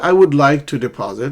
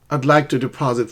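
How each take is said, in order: First: Both words 'I would' are said in full. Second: The words are contracted into one short syllable. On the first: "You can say, "I would like to deposit." It's not wrong" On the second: "in conversational English, as I would becomes I'd"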